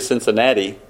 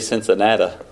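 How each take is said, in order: First: It is said with a standard pronunciation. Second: It is said with a southern Ohio accent. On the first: This is how outsiders say the name. "they don't say Cincinnati" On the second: This marks the speaker as being from Ohio. "They say Cincinnati"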